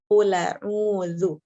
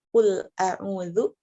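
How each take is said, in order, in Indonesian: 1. Hamzah dihilangkan; huruf l langsung tersambung. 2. Hamzah memisahkan qul dari a'udzu. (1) "dengan memindahkan harokat hamzah ke lam sukun" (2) "kata Qul a'udzu"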